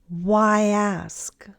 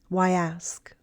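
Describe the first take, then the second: First: The phrase is said slowly. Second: The phrase is said faster. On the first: "first slowly" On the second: "and then faster"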